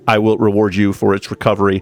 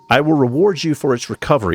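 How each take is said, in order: First: It is read in a put-on robotic voice. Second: It is read in a natural speaking voice.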